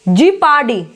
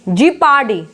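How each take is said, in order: Both takes have the same delivery.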